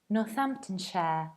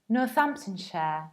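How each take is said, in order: First: The 'ham' and 'shire' parts are reduced. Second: The 'ham' and 'shire' parts are reduced.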